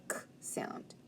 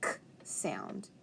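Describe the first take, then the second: First: The k sound whispered, much softer; teacher whispering the target sound. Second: K sound, breathed out, much softer; teacher modeling a sound; soft phonics sound. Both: Shown as a demonstration. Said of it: "try to make the".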